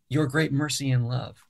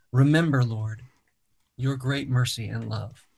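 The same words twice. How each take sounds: First: Your great mercy and love said in one flowing run; no pause. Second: A pause after Remember and after Lord, then your great mercy and love run together; read with emphasis and pauses. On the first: Songwriter showing the host where not to pause, flowing. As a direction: keep your and great together with no break. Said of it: "there's not a pause there". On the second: Songwriter demonstrating to the host, emphatic pauses in the psalm. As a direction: lean on each phrase and let the pauses breathe. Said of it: "trying to read it with emphasis". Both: Shown as a demonstration.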